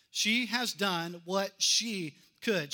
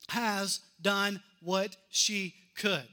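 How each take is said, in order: First: She has done what she could, slowly, weight on She; slow emphatic reading. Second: Has done what she could, slowly, weight on has; slow emphatic reading. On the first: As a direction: land each word slowly. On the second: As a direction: lean into each word slowly. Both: Shown as a demonstration. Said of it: "Look at these next few words".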